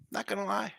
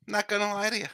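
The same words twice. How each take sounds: First: 'lie' repeated softer, as an aside; quiet echo. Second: Said in the usual way. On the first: Shown as a demonstration. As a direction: murmur 'Not gonna lie' again, softly.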